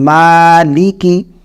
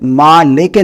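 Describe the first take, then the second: First: The middle syllable has an 'ee' vowel. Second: The middle syllable has an 'ay' vowel. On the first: The speaker calls it right. "इसको मालिकी पढ़ेंगे" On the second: The speaker calls it wrong. "माँ लेके नहीं पढ़ेंगे"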